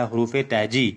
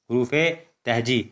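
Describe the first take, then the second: First: Said in the usual way. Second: حروف تہجی split into two words with a pause after حروف; spelled out slowly. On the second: Shown as a demonstration. Teacher to young pupils, sounding out حروف تہجی word by word. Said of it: "اور جو ہمارا عنوان ہے وہ ہے حروف تہجی".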